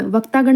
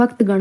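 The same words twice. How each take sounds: First: वक्तागण with a long aa after vakt; wrong form shown. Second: वक्तगण with no long aa before gan; correct pronunciation. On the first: Teacher citing the mistake, वक्तागण with long aa. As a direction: say वक्तागण as vaktaa-gan. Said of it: "वक्तागण नहीं होता". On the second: Teacher giving the correct form, वक्तगण without aa. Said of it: "वक्तगण होता है". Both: Shown as a demonstration.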